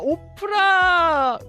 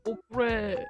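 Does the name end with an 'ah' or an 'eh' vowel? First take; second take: ah; eh. First: The name ends with an 'ah' vowel. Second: The name ends with an 'eh' vowel. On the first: The speaker calls it right. "오프라라고 읽는 거예요?" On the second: The speaker calls it wrong. "오프레가 그렇게 웃겼어?"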